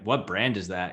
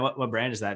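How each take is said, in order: First: The question sounds snooty and condescending. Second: The question sounds warm and curious. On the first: The asker is judging the other person. The speaker calls it wrong. "this guy's pretentious" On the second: The asker is genuinely interested. The speaker calls it right. "he means pretty well"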